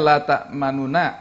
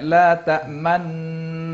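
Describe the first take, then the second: First: It is said plainly, without rounded lips. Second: It is said with rounded, pushed-out lips. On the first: This is how it is written. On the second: This is how it is recited. "tapi bacaannya la ta'manna ... sambil monyongkan mulut"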